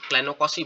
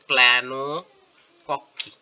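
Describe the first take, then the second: First: The ending is said with a soft s sound. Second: The ending is said with a hard k sound. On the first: The speaker calls it right. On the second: The speaker calls it wrong.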